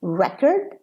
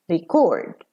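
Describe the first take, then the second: First: "Record" stressed on REC, short second syllable; noun stress. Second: "record" stressed on CORD, weak quick "re"; verb stress. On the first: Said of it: "as a noun". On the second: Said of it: "and as a verb". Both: Shown as a demonstration.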